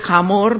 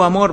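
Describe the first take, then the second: First: The word begins with an audible H sound. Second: The word begins directly with a vowel sound. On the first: The speaker calls it right. "voy a pronunciar el H" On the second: The speaker calls it wrong. "si digo amor va a ser muy confuso"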